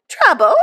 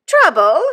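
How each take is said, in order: First: "Trouble?" loud and high, falling at the end; a falling "Trouble?" thrown back at her guest; echoed. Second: "Trouble?" loud and high, rising at the end; a rising "Trouble?" building to indignation; echoed again. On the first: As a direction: snap the word back in disbelief. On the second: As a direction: repeat it as an outraged question. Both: A narrator's reading. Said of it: "echoed my sister".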